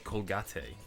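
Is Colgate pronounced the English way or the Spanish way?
Spanish. The word has a Spanish pronunciation.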